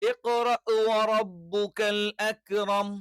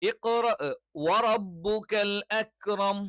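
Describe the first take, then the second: No difference in how they are said.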